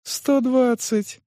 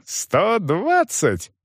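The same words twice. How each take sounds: First: High, slow astonished echo; sincere surprise. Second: High, very drawn-out outraged СТО ДВАДЦАТЬ; indignant emphasis. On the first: Manager echoes the price paid, surprised. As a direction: repeat the sum in honest amazement. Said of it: "искренне удивился Крутец". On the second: Young man insists on his payment, indignant. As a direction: stretch the sum out indignantly. Youth repeats the sum in outrage. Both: A narrator's reading.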